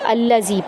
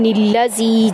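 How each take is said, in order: First: It is said alone, starting with a vowel a. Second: It is joined to the previous word, starting with n. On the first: The reciter starts fresh after stopping at the previous verse. "तो हम यहाँ पर अल्लज़ी पढ़ेंगे" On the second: The reciter continues without stopping from the previous verse. "निल्लज़ी पढ़ना उस सूरत में जायज़ है जबकि आप पीछे से पढ़ते हुए आ रहे हो"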